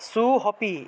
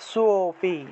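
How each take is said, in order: First: An h sound is spoken before the second syllable. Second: A light o sound replaces the h sound. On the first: The speaker calls it wrong. "এইভাবে বলা যাবে না" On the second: The speaker calls it right. "খানিকটা হালকা ও এর মতো"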